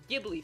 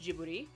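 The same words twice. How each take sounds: First: It is said with an English-style pronunciation. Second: It is said with a Japanese-style pronunciation. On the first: This is how some other speakers say it. "as some people pronounce them" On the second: This is how it is said in Japan. "In Japan, they're pronounced Ghibli"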